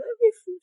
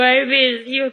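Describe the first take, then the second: First: Much higher and softer, falling on miss; higher softer repeat. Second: Said in the usual way. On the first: Retold or imitated. Repeating to her friend that she misses her, high and soft. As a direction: say "I miss you" high and soft, letting miss fall. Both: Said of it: "Sabi ko".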